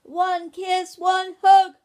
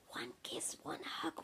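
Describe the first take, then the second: First: Put-on high, very loud child's yell; bellowed shout. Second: Put-on soft child's whisper. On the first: Ben shouts down to his parents, bellowing. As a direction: bellow it down the stairs. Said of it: "bellowing down the stairs, Ben shouted". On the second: Ben asks Daddy without waking Ursula, whispering. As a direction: whisper the request very softly. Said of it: "whispered Ben". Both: A narrator's reading.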